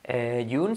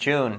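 First: The J sound is weak and plain. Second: The J sound is strong and exaggerated. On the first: The speaker calls it wrong. "No vamos a decir June" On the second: The speaker calls it right. "sino June"

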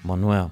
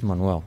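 The two takes are said the same way.

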